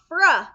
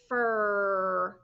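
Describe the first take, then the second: First: An extra uh vowel is added after the R. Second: The R sound is held with no vowel after. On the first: The speaker calls it wrong. "not fr. You don't want to put the uh on the end" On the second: The speaker calls it right. "Blend it together and the word and the sound is fur"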